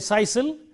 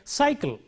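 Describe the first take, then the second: First: It uses an s sound in both places. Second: It begins with an s, then a k sound. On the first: The speaker calls it wrong. "We don't say sisal" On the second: The speaker calls it right. "So we say cycle"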